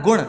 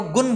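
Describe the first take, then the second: First: गुण ending in retroflex ṇ; correct nasal. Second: गुण ending in dental n, "gun"; common mispronunciation. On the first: Teacher correcting students, गुण with retroflex ṇ. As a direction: curl the tongue back on the end of गुण. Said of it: "जबकि होता है". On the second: Teacher showing most people's mistake, गुण as "gun". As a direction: close गुण on a plain n. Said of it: "अधिकांश लोग हमने देखा है". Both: Shown as a demonstration.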